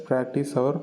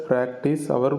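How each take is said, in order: No difference in how they are said.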